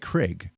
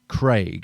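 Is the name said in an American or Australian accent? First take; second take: American; Australian. First: The vowel does not rhyme with vague, American style. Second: The vowel rhymes with vague, Australian style. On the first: "Americans will say Craig" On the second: "Craig in Australia. It rhymes with vague"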